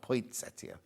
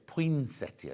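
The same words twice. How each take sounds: First: The first part is said 'point', with a T. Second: The first part is said 'poin', with no T. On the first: The speaker calls it wrong. "not poinsettia. ... there's no T where point" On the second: The speaker calls it right. "It's poinsettia"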